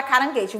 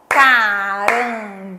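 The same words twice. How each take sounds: First: Said in the usual way. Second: "caranguejo" broken into ca-ran-gue-jo, each syllable held. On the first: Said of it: "quantas sílabas tem a palavra caranguejo". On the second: Shown as a demonstration. Teacher counting syllables with children, "caranguejo" in four slow, separate beats. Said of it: "A gente sempre conta com os dedinhos ou com as palminhas".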